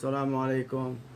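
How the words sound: It is said with a serious, unsmiling voice. The speaker calls it wrong. "Salamu alaikum is serious"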